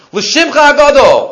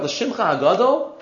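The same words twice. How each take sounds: First: "L'shimcha hagadol" higher and louder, falling firmly; emphatic declaration. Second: "L'shimcha hagadol?" much softer with a rising end; soft questioning. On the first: Teacher declaiming the prayer's phrase to his students, emphatic. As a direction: proclaim "L'shimcha hagadol" with force. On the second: Teacher questioning why the prayer says it, soft and rising. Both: Shown as a demonstration. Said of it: "What's the emphasis of L'shimcha hagadol?".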